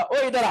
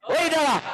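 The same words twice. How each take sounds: First: Said in the usual way. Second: Mock shout. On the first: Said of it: "ketone ने जो है sodium borohydride से बोला". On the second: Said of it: "क्या बोला".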